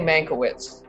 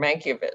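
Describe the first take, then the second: First: The name is pronounced in an anglicized way. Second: The name is pronounced in a European way. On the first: This is the speaker's own habitual pronunciation. "I say it that way" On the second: This is how a linguistically sophisticated family member said it. "some very European and very probably accurate"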